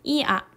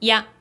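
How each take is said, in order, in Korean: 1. 두 모음이 따로 발음돼요. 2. 앞 모음이 짧으면 하나의 소리로 합쳐져요.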